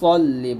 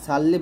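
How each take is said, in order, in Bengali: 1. প্রথম স্বরধ্বনিটি একটি গোলাকার 'o' ধ্বনি। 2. প্রথম স্বরধ্বনিটি একটি খোলা 'a' ধ্বনি। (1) "সল্লি বলবেন" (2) "সাল্লি বলবেন না"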